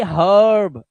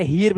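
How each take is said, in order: First: हर्ब with a drawn-out uh before r; 'uh' vowel. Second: हीर्ब with ee before the r; long ee misreading. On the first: Teacher showing the correct reading, long uh. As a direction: stretch the uh in हर्ब. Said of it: "अ की आवाज". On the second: Teacher showing the misreading, ee vowel. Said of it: "अब इसे हीर्ब नहीं पढ़ोगे". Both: Shown as a demonstration.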